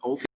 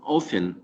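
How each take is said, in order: First: The T sound is pronounced. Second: The T sound is silent. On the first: This is how some speakers in Britain say it. "in England it's just Wales uh, province that pr- that pronounce the word often" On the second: This is how it is said in America. "in America they pronounce the word often"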